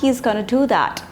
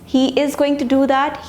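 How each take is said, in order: First: The words are merged into reduced, shortened forms. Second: Every word is said fully and separately.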